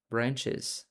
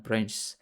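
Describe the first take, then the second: First: "Branches" in two syllables, ending in -iz; correct plural pronunciation. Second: "branches" squashed into one syllable, branchs; mispronounced plural. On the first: Teacher models the plural for a learner, "Branches" pronounced BRAN-chiz. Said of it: "How do we pronounce?". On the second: Teacher shows a learner the mistake, "branches" mispronounced as one-syllable branchs. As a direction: drop the vowel in the ending of "branches": BRANCHS. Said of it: "not branches". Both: Shown as a demonstration.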